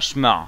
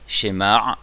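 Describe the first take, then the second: First: The sh runs straight into the m. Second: A short e sounds between sh and m. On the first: The speaker calls it wrong. "Pas shmar" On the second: The speaker calls it right. "on entend un petit e"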